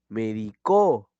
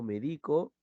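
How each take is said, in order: First: The stress is on the last syllable. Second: The stress is on the middle syllable. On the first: The action happened in the past. "también es un verbo" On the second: The action happens now. "pero yo digo medico"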